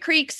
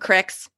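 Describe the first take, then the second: First: It has a long ee vowel, standard pronunciation. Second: It has a short i vowel, Pittsburgh style.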